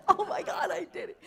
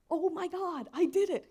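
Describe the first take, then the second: First: High triumphant cry broken by laughter; laughing exclaim. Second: High, loud retold cry of triumph; excited exclaim. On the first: Retold or imitated. Retelling waking up to the solved equation, laughing high exclaim. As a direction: laugh through the memory of the win. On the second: Waking to find the equation solved, high excited exclaim. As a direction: relive the moment you cracked it. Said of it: "I remember waking up thinking".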